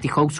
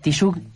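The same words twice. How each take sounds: First: The name is read literally, as it is spelled. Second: The name is not read as it is spelled. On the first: The speaker calls it wrong. "lo estaba pronunciando mal, pero soy medio literal en eso" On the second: The speaker calls it right. "¿Cómo quiere que lo diga? ¿Tijoux? ¿Así?"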